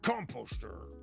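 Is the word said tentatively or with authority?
with authority. It is said forcefully, with authority.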